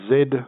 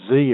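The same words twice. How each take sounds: First: The letter is said as zed, non-American. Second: The letter is said as zee, American.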